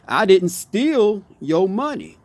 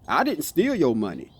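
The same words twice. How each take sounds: First: The word steal carries the main stress. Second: The word I carries the main stress. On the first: The money was taken, but not stolen. "So what did you do then? Did you borrow it" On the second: Someone else stole the money. "So who stole my money?"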